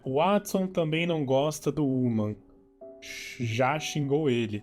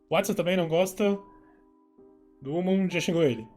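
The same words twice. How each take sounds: First: The sentence is read at a normal pace. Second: The sentence is read very quickly.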